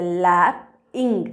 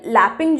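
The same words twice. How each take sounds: First: लैपिंग slow and lower, "lap", pause, "ing"; split into syllables. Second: Said in the usual way. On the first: Shown as a demonstration. Teacher showing students two syllables, लैपिंग split slowly into lap-ing. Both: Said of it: "इसमें दो syllables है".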